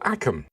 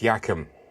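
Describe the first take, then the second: First: The name begins with a plain vowel. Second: The name begins with a 'y' sound. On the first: The speaker calls it wrong. "you're wrong" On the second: The speaker calls it right. "It's pronounced Yackham"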